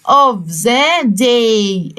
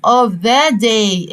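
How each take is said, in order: First: Of the day stretched very slowly; slow model phrase. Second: Of the day again very slowly, stress on the; slow model phrase. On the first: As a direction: draw out of the day for the class. (of the day ببطء شديد) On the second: (of the day ببطء) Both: Shown as a demonstration. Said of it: "في نهاية اليوم".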